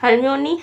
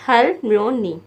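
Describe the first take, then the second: First: Said in the usual way. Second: हलम्योनी in three parts, hal, myo, ni; teacher breaking up हलम्योनी; syllable by syllable. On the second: Shown as a demonstration. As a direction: separate each syllable of हलम्योनी. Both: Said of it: "तीन तीन syllable बने हैं".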